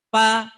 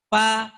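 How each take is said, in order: The two takes are said the same way.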